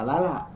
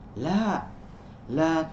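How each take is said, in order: First: The two las run together without a pause. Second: There is a short pause between the two las. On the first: It sounds like a woman's name. The speaker calls it wrong. "tidak dibaca lala" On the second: The first la answers no, the second forbids. The speaker calls it right. "ada jeda"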